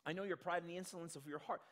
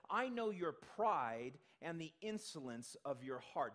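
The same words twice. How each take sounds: First: Fast run through the verse; quick reread. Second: Slow, deliberate reading of the verse; slow scripture quote. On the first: Scene: preacher reads the verse again, hurried. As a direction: rattle the quote off quickly. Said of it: "he says". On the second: Scene: preacher quotes Eliab to the congregation, slow and deliberate. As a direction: read it slowly, weighing each word. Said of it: "where he says". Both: Shown as a demonstration.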